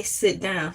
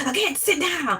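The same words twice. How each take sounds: First: Said in the usual way. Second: High-pitched Southern rooster-like bluster; Southern teacher impression. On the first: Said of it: "he wouldn't just say". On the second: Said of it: "He sound like Foghorn Leghorn".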